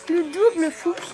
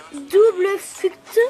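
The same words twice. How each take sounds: First: « Le double fruct » redit vite, sons français; répète « Le double fruct » simplement, sans chercher l'anglais; reprise à la française. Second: « double fruct » prononcé lentement et fort, à l'anglaise hésitante; détache « double fruct » en cherchant l'accent anglais; essai d'anglais. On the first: (« Le double fruct » à la française, plus rapide) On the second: (« double fruct » traîné, prononciation anglaise maladroite) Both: Real, not acted. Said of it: "Désolée pour mon accent".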